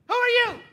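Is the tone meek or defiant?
defiant. It is said defiantly and arrogantly.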